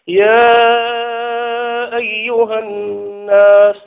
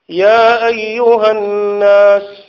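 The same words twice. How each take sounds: First: The vowel of 'ya' is held very long. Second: The vowel of 'ya' is held short. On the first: "بالإشباع" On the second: "فيجوز فيها القصر"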